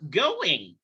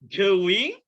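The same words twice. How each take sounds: First: The stress is on the first syllable. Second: The stress is on the second syllable. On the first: "stresnya di awal" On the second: "Yang satu naruh stres di belakang"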